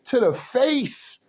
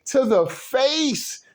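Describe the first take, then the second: First: Said in the usual way. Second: "To the face" drawn out slowly, each word leaned on, pitch raised; slow emphatic repeat. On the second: Shown as a demonstration.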